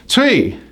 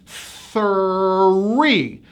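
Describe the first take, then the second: First: Three said as "tree", no TH; three turned into tree; mispronounced three. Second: Three stretched out as thurr-REE; Three, very slow, each sound joined; TH-R blend. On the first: Retold or imitated. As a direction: say three with a plain T at the start. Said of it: "many of my clients pronounce this number as". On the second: Shown as a demonstration. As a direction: draw Three out from breathy TH through R to EE. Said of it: "Now you put it all together".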